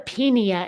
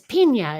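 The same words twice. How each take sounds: First: The middle consonant is a plain n sound. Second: The middle consonant is an ny sound. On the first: The speaker calls it wrong. "it's not a pina" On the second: The speaker calls it right. "It's got the tilde over the end"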